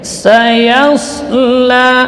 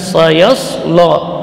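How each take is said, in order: First: The final syllable sounds thin and light. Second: The final syllable sounds thick and dark. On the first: The speaker calls it right. "tipis tetap" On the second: The speaker calls it wrong. "bukan sayaslo, ya. Jadi itu salah"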